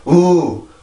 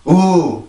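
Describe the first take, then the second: The two takes are said the same way.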